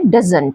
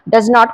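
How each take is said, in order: First: It is said as one contracted word. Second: It is said as two separate full words.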